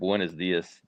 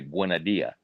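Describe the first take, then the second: First: It is said with the s sounds pronounced. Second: It is said Cuban-style, dropping the s sounds.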